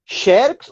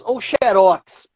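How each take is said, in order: First: "Xerox" stressed on XE, drawn out; stress on first syllable. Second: "xerox" stressed on ROX, drawn out; stress on last syllable. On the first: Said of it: "se a sílaba tônica for a penúltima". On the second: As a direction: slowly hit the final syllable of "xerox". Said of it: "são palavras oxítonas em X". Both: Shown as a demonstration.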